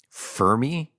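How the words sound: The name is said with an American accent. "The American pronunciation is Fermi"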